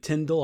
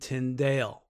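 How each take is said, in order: First: The name is said in the British way. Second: The name is said in a non-British way. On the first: "I believe that's the proper British pronunciation of the name" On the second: "Some people say William Tyndale"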